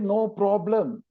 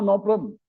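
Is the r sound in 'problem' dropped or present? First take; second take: present; dropped. First: The r sound after p is clearly pronounced. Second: The r sound after p is left out. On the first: The speaker calls it right. "They don't say no problem" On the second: The speaker calls it wrong. "the P R is disappear"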